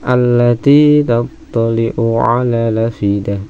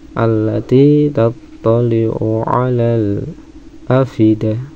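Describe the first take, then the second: First: The glottal stop is dropped and the vowel linked. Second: A brief stop comes before the glottal stop. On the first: "Nakal dibuang hamzahnya, harokatnya ke huruf sebelumnya" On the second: "atau sakta"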